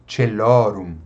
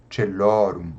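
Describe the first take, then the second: First: Celorum said with a ch sound, stress on lo; Latin church pronunciation. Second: Celorum repeated lower, che-LO-rum with a falling tune; repeated slower pronunciation. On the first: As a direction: say celorum as che-LO-rum. (pronúncia eclesiástica: celorum com "tch" e tônica em lo) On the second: (celorum repetido mais grave, "tche-LO-rum") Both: Shown as a demonstration. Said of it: "então só pode ser".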